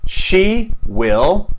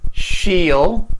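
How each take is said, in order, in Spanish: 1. 'Will' se dice como una palabra completa y separada. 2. 'Will' se acorta y se une al pronombre.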